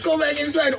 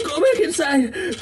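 First: High, pleading, a little steadier; desperate plea. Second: High, crying plea; desperate crying plea. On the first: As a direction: beg it again, urgent. Repeated plea. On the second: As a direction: sob it out, begging. Begging in clip. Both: Acted.

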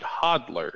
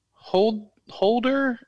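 First: Hodler with D before L; pronounced Hodler. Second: Holder with a long O and L before D; pronounced Holder. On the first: Host offers co-host the other option, Hodler said HOD-ler. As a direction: say Hodler as "HOD-ler", short first vowel. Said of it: "or do you pronounce it". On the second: Host asks co-host how the name is said, Holder with a long O. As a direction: say Holder like "holder", pitched much higher, as a question. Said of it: "do you pronounce it". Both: Shown as a demonstration.

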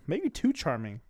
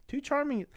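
First: Said in the usual way. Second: Charming pitched way up high; a mocking falsetto repeat; high echo. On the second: Shown as a demonstration. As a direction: say it again with a sudden high squeak. Repeats the phrase, echoing himself.

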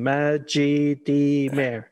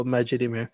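First: Majidimir drawn out slowly, syllable by syllable; pronounced as written. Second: Majidimir as one long even word, no stressed syllable; monotonous. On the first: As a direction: spell out Majidimir by sound, very slowly. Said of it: "the way it's written". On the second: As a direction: run Majidimir together evenly, on one note. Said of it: "monotonous kind of just go". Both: Shown as a demonstration.

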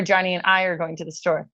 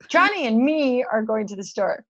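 First: "I" picked out as the alternative; stress on I. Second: "me" leaned on as the option in question; stress on me. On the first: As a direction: present the second option, weighting "I". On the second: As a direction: present the first option, weighting "me". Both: Shown as a demonstration. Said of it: "Which one is the right one?".

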